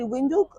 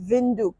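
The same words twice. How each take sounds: First: It is said without an Afrikaans accent. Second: It is said with an Afrikaans accent. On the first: This is how the speaker says it. "I do not have the, you know, the Afrikaans accent, but then I call it Windhoek" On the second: This is how some locals say it. "but I think they call it Windhoek, some of them"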